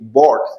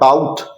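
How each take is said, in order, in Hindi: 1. स्वर 'awe' वाले स्वर जैसा है। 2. स्वर 'out' वाले स्वर जैसा है। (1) "B O यू G S T, बॉट" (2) "it is not bout"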